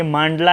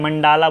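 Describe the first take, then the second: First: मांडला said maan-dla, long first a, short a before la; मांडला with a long first vowel and no vowel after ड; one pronunciation. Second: मंडाला said man-daa-la, long a after ड; मंडाला with the stress on a long middle daa; other pronunciation. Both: Shown as a demonstration. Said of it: "जो pronunciation है किसी district का वो थोड़ा बहुत अलग कर दूँ".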